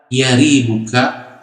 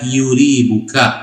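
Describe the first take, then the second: First: The first vowel is an 'a' sound. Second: The first vowel is a 'u' sound. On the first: "ya-nya berbaris fathah" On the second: "bisa juga dibaca yuribuka"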